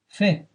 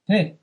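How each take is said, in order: First: It begins with a soft f sound. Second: It begins with a hard p sound. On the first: "you pronounce it as fet, fet, fe, kaf" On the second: "the next word begins with a bet, pe, kaf"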